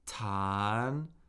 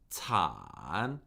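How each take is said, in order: First: The pitch rises from middle to high. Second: The pitch dips low then rises.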